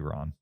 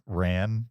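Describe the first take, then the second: First: The vowel sounds like the one in 'father'. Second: The vowel sounds like the one in 'cat'. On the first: The speaker calls it right. "but it's probably Ron" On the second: The speaker calls it wrong. "American pronunciation is Ran"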